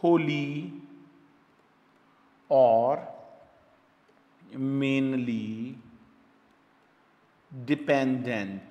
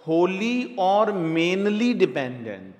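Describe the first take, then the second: First: "Holi", "और", "mainly", "dependent" each said alone with long pauses between; dictating word by word. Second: "Holi और mainly dependent" said as one slow joined phrase; slow recap phrase. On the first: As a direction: spell out every word for note-taking. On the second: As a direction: read the whole bracket back slowly in one go. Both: Shown as a demonstration. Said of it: "bracket में आपको लिखना पड़ेगा".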